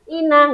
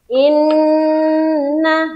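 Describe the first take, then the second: First: The n is said quickly without holding. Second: The nasal n is pressed and held long. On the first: The speaker calls it wrong. "jangan tergesa-gesa, jangan ina, nggak boleh" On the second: The speaker calls it right. "jadi ditekan dan tahan"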